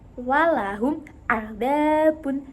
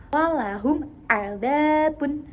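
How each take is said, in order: The two takes are said the same way.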